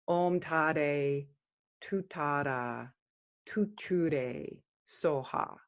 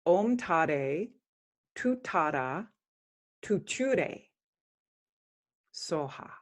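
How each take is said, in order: First: Om Tare Tu Tara Tu Ture spoken softly; quiet spoken mantra; Tibetan mantra pronunciation. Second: Om Tare Tu Tara Tu Ture, each word set apart; careful corrected Tu Ture; spoken mantra, corrected; correct mantra pronunciation. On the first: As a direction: say Ture with the extra syllable. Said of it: "I might have said a wrong syllable the first time". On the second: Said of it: "the second and third time is correct". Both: Shown as a demonstration.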